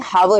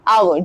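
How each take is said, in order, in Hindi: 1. शब्द की शुरुआत 'h' ध्वनि से होती है। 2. शब्द की शुरुआत एक स्वर से होती है, 'h' से नहीं। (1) "ना कि हावर हो रहा है" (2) "वो आ हो रहा है"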